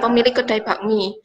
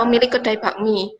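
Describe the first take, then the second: First: The phrase is said as one unbroken unit. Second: The same.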